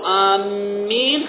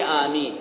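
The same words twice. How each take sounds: First: The m sound is doubled and held longer. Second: The m sound is single and short. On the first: We are heading toward something. The speaker calls it wrong. "إذا قلت آمين خطأ يعني بشدة على الميم هذه خطأ" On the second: Lord, answer the prayer. The speaker calls it right. "آمين يعني استجب ربي"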